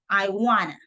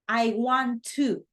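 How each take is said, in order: First: 'Want to' is squeezed into one reduced word. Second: Each word of 'want to' is said in full.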